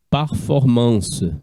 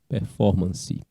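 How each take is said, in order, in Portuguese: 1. A palavra é pronunciada do jeito francês. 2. A palavra é pronunciada do jeito português. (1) "deriva do francês antigo" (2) "a gente só muda um pouco a pronúncia"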